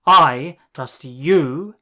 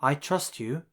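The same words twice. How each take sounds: First: "I" loud, slow and rising; stress on I. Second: Said in the usual way. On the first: Shown as a demonstration. Teacher showing the emphasized version, stress on "I". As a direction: lean hard on "I", drawn out. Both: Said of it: "you might need to emphasize two words".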